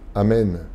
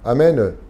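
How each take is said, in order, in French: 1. Le E est fermé, non ouvert. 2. Le E est ouvert, comme dans 'amène'. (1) "Tel quel" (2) "les Français, très souvent, ont le E ponctué"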